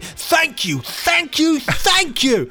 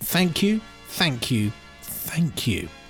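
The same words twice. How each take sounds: First: It is read with growing excitement and energy. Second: It is read flatly, without much energy.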